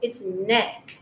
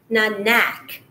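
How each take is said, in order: First: The vowel is the short e sound. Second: The vowel is the short a sound. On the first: The speaker calls it right. "No, it's neck" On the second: The speaker calls it wrong. "But if it is A, it would be neck"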